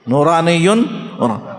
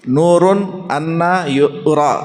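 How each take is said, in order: First: It is read as one word, nuraniyyun. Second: It is read as nurun anna with two words. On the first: A luminous being was seen. "नूरानियुन उरा, वो एक नूरानी ज़ात है" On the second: The one asked about is light and cannot be seen. "इसको आप ऐसा पढ़ने के बजाय"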